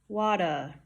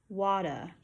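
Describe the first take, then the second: The two takes are said the same way.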